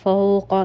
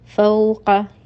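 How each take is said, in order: First: The diphthong is thick, with a wide mouth space. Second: The diphthong is thin, with a narrow mouth space. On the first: The speaker calls it wrong. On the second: The speaker calls it right.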